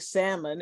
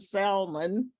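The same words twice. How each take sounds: First: The L sound is left silent. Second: The L sound is clearly pronounced. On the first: The speaker calls it right. "instead of saying salmon" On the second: The speaker calls it wrong. "pronounce the L in salmon"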